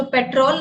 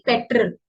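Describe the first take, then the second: First: "पेट्रोल" with a long rolled -rol; the incorrect "पेट्रोल", petrol with o; wrong petrol take; wrong pronunciation. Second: "पेट्रोल" with a short -rəl ending; corrected petrol; correct pronunciation. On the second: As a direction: say "पेट्रोल" as pe-trəl, weak last vowel. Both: Shown as a demonstration. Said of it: "पेट्रोल नहीं".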